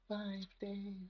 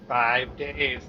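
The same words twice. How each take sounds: First: It is said in a creepy little-girl voice. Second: It is said in a normal voice.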